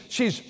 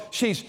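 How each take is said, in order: Both takes have the same delivery.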